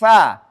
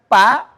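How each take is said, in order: First: It begins with a flowing f sound. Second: It begins with a stopped p sound. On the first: The speaker calls it right. "Fa dengan sifatnya hams. Fa mengalir" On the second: The speaker calls it wrong. "kalau disebutin dengan pa, nah itu jelas salah"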